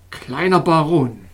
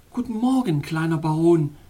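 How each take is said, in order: First: Slow, cold and louder address; icy tone. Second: Sweetest tone. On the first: King addressing the little baron in an icy tone. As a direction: say it with frosty displeasure. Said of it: "in eisigem Ton". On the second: Princess greeting the little baron in her sweetest tone. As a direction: greet him as sweetly as you can. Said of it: "rief sie in ihrem süßesten Ton". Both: A narrator's reading.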